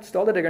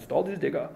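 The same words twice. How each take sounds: First: It is said in the speaker's own accent. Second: It is said in a put-on German accent.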